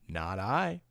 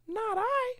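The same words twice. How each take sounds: First: It is said in a Papa Bear voice. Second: It is said in a Little Bear voice.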